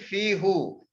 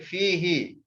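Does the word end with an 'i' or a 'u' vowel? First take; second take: u; i. First: The final vowel is a 'u' sound. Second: The final vowel is an 'i' sound. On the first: The speaker calls it wrong. "we don't read fihu" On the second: The speaker calls it right. "We just read it fihi"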